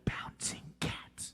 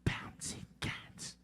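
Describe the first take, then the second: No difference in how they are said.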